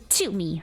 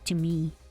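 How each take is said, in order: First: The t is released with a strong, harsh puff. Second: The t is released gently with a soft puff. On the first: The speaker calls it wrong. "I say to me" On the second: The speaker calls it right. "like softer"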